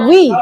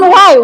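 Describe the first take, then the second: First: The vowel is an 'ee' sound. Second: The vowel is an 'ai' sound. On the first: The speaker calls it right. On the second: The speaker calls it wrong. "Bukan why"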